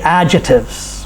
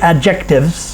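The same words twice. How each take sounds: First: The c in the middle is silent. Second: The c in the middle is pronounced. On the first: The speaker calls it right. "We say adjectives. We drop the C as silent" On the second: The speaker calls it wrong. "We don't say adjectives"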